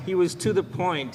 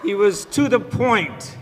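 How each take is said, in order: First: Said in the usual way. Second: "He was to the point" said higher, louder, slow, through a laugh; slow emphatic laughing take. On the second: Real, not acted. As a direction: lean into "to the point" with a chuckle.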